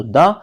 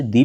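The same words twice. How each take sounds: First: द said "daa", with an open vowel; "the" before consonants. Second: दी said "dee", with an "ee" vowel; "the" before vowels. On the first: Teacher recapping the rule for students, द said as open "daa". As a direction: say द as "daa", not "dee". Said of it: "consonant के पहले आएगा तो द". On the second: Teacher recapping the rule for students, दी said as "dee". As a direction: say दी as "dee", not "daa". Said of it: "vowels के पहले आएगा तो उसे दी पढ़ा जाता है". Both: Shown as a demonstration.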